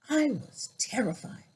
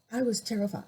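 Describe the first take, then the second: First: Breathless whisper, barely voiced; whispered fear. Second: Said in the usual way. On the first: Real, not acted. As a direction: let it slip out as a hushed whisper. Recalling childhood racist attack.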